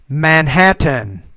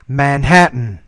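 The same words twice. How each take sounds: First: The T is fully pronounced. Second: The T is a glottal stop. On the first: "I'll pronounce the T the first time" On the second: "the second time I'll do it with the glottal stop"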